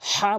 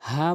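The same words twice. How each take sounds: First: The h is pressed from mid-throat. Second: The h is a light, plain breath. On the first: The speaker calls it right. "হা বলতে হবে" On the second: The speaker calls it wrong. "হা বলা যাবে না"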